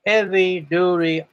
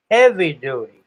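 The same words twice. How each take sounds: First: Said in the usual way. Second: "heavy-duty" hit hard and louder at the start; emphatic repeat. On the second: Real, not acted. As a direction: punch "heavy-duty" to drive it home. Repeats after "I mean" for emphasis.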